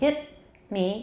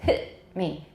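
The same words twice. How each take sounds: First: Hit ends with a released t sound. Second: Hit ends with a glottal stop. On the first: The speaker calls it wrong. "We don't say" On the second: The speaker calls it right. "usually we say"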